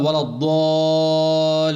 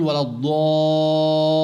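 First: ولا الضالين recited slowly with a single, undoubled lam; without doubled lam. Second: ولا الضالين recited slowly, lam in الضالين held and doubled. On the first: Teacher demonstrating the wrong recitation, no doubled lam. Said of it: "ما شدد اللام". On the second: Teacher demonstrating correct recitation with doubled lam. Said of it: "هذا التشديد عند اللام". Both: Shown as a demonstration.

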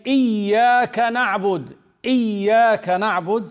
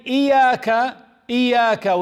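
First: "إياك" with a doubled, stressed ya, said higher and a bit louder. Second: "إياك" with a single, unstressed ya, said higher and louder; no stress on ya. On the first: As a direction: lean hard on the doubled ya in "إياك". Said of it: "see how I'm stressing on the ya". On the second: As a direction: say "إياك" without doubling the ya. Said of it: "without the stress on the ya". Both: Shown as a demonstration.

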